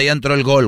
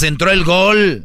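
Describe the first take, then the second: First: Said in the usual way. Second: Gol gritado, más alto y lento; grítalo como festejo de gol; grito de gol. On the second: Shown as a demonstration. (grito de gol lento y más agudo) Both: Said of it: "ahí es donde gritas".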